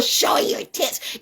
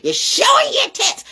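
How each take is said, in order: First: Hushed, scornful aside; whispered jab. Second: Much higher, pushed out on showing; mock shriek. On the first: Mocking women online, a whispered jab. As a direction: whisper it, breathless and sly. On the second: Mocking women online, a high exclaimed jab. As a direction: squeal it in disbelief. Same words shouted up high. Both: Real, not acted.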